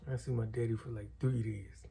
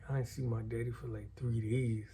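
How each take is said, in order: Both takes have the same delivery.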